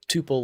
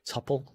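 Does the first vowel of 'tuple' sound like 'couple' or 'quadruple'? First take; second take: quadruple; couple. First: The first vowel is a long 'oo' sound. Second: The first vowel is short, as in 'couple'. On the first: "like quadruple" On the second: "like a couple"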